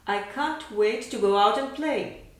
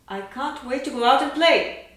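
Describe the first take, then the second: First: It speeds up gradually toward the end. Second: It speeds up and grows louder toward the end. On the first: "Now with accelerando" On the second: "And now with accelerando and crescendo"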